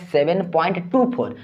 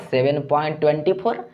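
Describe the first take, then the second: First: "टू four" as two separate digits; digit-by-digit reading. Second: "twenty four" run together as one number; wrong decimal reading. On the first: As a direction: give "टू" and "four" one at a time. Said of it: "एका करके पढ़ा जाता है". ("टू four" एक-एक अंक करके) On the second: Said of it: "ऐसे नहीं पढ़ा जाता है". ("ट्वेंटी फ़ोर" को एक संख्या की तरह पढ़ते हुए) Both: Shown as a demonstration.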